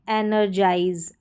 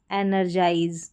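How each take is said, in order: Both takes have the same delivery.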